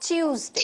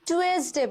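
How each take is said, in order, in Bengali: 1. এটা 'choo' দিয়ে শুরু হয়। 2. এটা সাধারণ 'too' দিয়ে শুরু হয়। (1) "কিংবা চিউসডে" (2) "এটাকে আমরা অনেকেই টুয়েসডে বলি"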